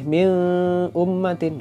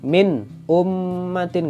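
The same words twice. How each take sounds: First: The n sound is blurred into the next sound. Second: The n sound is pronounced clearly. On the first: The speaker calls it wrong. "nggak boleh" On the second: The speaker calls it right. "Ini juga harus jelas"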